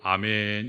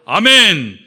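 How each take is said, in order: First: It is said on a low pitch. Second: It is said on a middle pitch.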